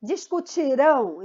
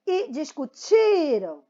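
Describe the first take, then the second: First: Discutirão with a strong final RÃO; discutirão, weight on the held ending; stress on RÃO. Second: Discutiram slowly, TI long and strong, ending falling; discutiram, weight on next-to-last syllable; stress on TI. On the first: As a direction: land on the last syllable of discutirão. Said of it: "Então, é o rão". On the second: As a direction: stretch TI in discutiram, let the last syllable fade. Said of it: "o rão vai morrendo aí o som dele". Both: Shown as a demonstration.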